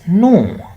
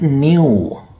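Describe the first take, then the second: First: The word is said with an American pronunciation. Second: The word is said with a non-American pronunciation. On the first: The speaker calls it right. "In American English, that is new" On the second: The speaker calls it wrong. "not new"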